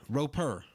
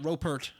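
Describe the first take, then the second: First: The name ends without a T sound. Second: The name ends with a T sound. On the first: The speaker calls it right. "there's no T's" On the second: The speaker calls it wrong. "not Ropert"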